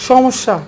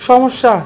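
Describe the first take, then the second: No difference in how they are said.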